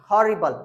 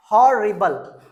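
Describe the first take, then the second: First: Said in the usual way. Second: हॉरिबल drawn out in parts, loud first beat; teacher breaking up हॉरिबल for learners; split into syllables. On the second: Shown as a demonstration. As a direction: sound out हॉरिबल loudly, beat by beat. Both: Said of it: "इन सबको एक बार में".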